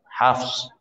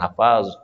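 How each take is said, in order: First: The f and s are joined with no vowel. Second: An extra vowel is inserted between f and s. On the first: The speaker calls it right. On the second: The speaker calls it wrong. "bukan Hafaz"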